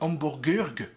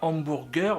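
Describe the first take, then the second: First: The word has a German-style pronunciation. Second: The word has a plain French pronunciation. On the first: The speaker calls it right. "mais hamburgerg, parce que c'est allemand à l'origine" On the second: The speaker calls it wrong. "on dit pas hamburger"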